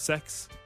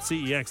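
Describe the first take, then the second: First: The name is said as one word rhyming with 'next'. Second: The name is spelled out as three letters. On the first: "That's pronounced sex" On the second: "I always call it CEX"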